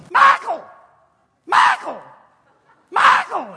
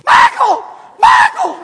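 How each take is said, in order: First: High, shouted calls of a name; calling out a name. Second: Very high, very loud shrieked calls; wife outdoing the fan for the jersey, shrieking; Missus Weaver shrieking. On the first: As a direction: yell for Michael like an eager fan. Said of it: "she's going". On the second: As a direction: scream his name with everything you've got. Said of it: "Missus Weaver goes". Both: Retold or imitated.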